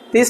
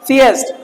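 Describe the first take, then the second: First: The word is said with one syllable. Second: The word is said with two syllables. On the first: The speaker calls it wrong. "थीस्ट नहीं पढ़ते" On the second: The speaker calls it right. "सीएस्ट बोलो"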